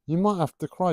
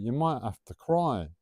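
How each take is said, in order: First: "You might have to cry" higher and louder, stress on "might"; emphatic repeat. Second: Said in the usual way. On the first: Shown as a demonstration. Repeating the warning to the milk-spiller, stressing "might" loudly. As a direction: push "might" up high and loud. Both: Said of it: "repeated with emphasis".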